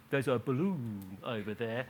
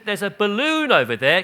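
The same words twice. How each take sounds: First: "There's a balloon over there" said quieter and lower, flat, not bright; flat aside. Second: "There's a balloon over there" said higher and louder, bright and excited, balloon rising; cheerful distraction. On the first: Pretend. Imagined parent to a teenager, quiet flat aside. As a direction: mutter it as a dry joke. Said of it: "I'm not saying you say to a seventeen-year-old". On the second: Retold or imitated. Mother distracting crying toddler, loud bright excited voice. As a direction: point out the balloon eagerly to a toddler. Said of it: "she said, said".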